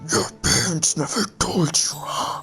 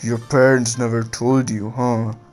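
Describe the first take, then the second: First: It is said in a put-on character voice. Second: It is said in a normal, slightly menacing voice. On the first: The speaker calls it wrong. "Crap, no, that's uh, that's not gonna work" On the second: The speaker calls it right. "I'm just gonna do Kurama in my normal voice, like a little bit more menacing"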